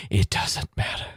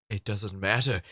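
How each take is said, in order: First: Breathy whispered repeat; whispering. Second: Said in the usual way. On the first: Shown as a demonstration. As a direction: whisper it under your breath.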